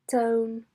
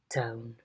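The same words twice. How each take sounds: First: The pitch stays flat throughout. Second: The pitch falls from mid to low. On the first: "a level tone" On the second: "a low fall"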